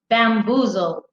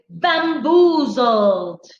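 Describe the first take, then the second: First: The word is said with light, toned-down emphasis. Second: The word is said with heavy, energetic emphasis.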